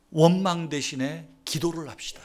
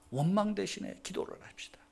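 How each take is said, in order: First: Said in the usual way. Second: Hushed, breathy repeat of the same line; whisper. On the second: Shown as a demonstration. Preacher whispering the call to prayer to the congregation.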